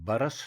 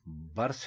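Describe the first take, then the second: First: A short a vowel comes between r and s. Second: The r and s are joined with no vowel. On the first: The speaker calls it wrong. "दुरुस्त लफ्ज बरस नहीं है" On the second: The speaker calls it right. "बल्कि बरस है"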